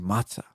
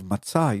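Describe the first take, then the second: First: The stress is on the first syllable. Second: The stress is on the last syllable. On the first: The speaker calls it wrong. "you say matzah" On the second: The speaker calls it right. "Instead of matzah"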